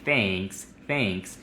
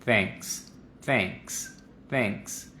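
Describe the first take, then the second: First: Thanks with a wide, mouthed E; thanks with too much mouth movement; Spanish-sounding thanks. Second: Thanks with little mouth movement, quiet; thanks with minimal movement; neutral thanks. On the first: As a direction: gesture the E the Spanish way. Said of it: "eso suena muy español". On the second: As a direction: keep the mouth small on thanks. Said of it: "vamos a reducir los movimientos de la boca". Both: Shown as a demonstration.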